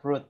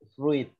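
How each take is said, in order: First: The word is said as plain 'frut'. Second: The word is not said as plain 'frut'. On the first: The speaker calls it right. "Itu dibaca fruit Bapak Ibu. F R U T saja" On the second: The speaker calls it wrong. "Kadang kita uh, bacanya fruit"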